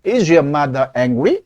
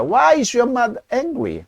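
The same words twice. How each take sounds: First: Slow question, "angry?" rising at the end. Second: A slow model question that falls at the end; falling end. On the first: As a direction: ask "Is your mother angry?" slowly, pitch climbing on the last word. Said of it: "뒤를 무조건 올려 읽습니다". (끝을 올려 읽는 의문문) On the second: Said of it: "뒤를 무조건 내려 읽습니다". (의문사로 시작해 끝을 내리는 억양) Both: Shown as a demonstration.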